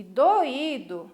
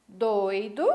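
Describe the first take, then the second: First: "doído" drawn out as do-Í-do; three syllables. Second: "Doido" as DOI-do, oi in one glide; two syllables. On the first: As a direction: slowly say "doído", o and stressed í separate. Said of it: "nós temos três sílabas". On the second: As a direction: say "Doido" stressed on the first syllable. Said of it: "nós temos duas sílabas". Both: Shown as a demonstration.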